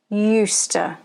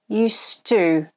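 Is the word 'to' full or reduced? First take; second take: reduced; full. First: The word 'to' is reduced and weak. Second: The word 'to' is full and clear. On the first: "It sounds like this" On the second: "at the end of a sentence, it sounds more like"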